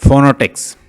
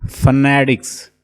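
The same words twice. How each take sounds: First: फोनेटिक्स said loud as fonetiks with a full o; mock common mistake; wrong pronunciation. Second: फोनेटिक्स slow, with a weak schwa fuh-NE-tiks; teacher giving the exact form; correct pronunciation. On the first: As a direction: stress फोनेटिक्स with a pronounced o. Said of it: "कुछ इसको पढ़ेंगे". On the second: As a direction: model फोनेटिक्स carefully, slowly. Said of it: "इसकी exact pronunciation है". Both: Shown as a demonstration.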